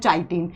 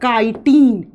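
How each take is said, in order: First: The word begins with a 'ch' sound. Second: The word begins with a 'k' sound. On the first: The speaker calls it wrong. "Pronounce करते हैं चाइटीन। चाइटीन नहीं" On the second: The speaker calls it right. "इसको लिखा जाता है काइटीन"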